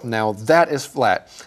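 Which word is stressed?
that. The word that carries the stress. The speaker calls it right. "it's on the word that"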